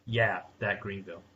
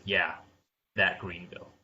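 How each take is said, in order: First: Smug, taunting ad line; condescending. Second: Smug, condescending put-down. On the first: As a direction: sneer it like a know-it-all. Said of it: "And it was condescending". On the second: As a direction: taunt it like a smug ad. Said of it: "almost condescending, smug voice". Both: Retold or imitated.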